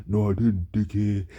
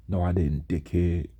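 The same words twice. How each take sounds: First: Slightly exaggerated copy of a lifeless voice; mocking imitation. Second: Understated, emotionless comeback; reply with no life in it; lifeless monotone. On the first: Laughing classmate parroting his comeback, mocking imitation. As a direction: mimic his monotone to make fun of it. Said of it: "people made fun of the way I talked". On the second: Retold or imitated. Teased student answering his accuser in math class, lifeless monotone. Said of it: "talk with life or emotion at all".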